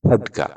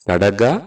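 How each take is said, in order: First: The first consonant has a strong puff of breath. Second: The first consonant is plain, without aspiration. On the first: This is the formal standard form. "ಸರಿಯಾದ ಕನ್ನಡವನ್ನ ... ಖಡ್ಗ ಅಂತ ಹೇಳ್ಬೇಕು" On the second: This is the everyday spoken form. "ಕ ಅಂತ ಹೇಳ್ತೀವಿ"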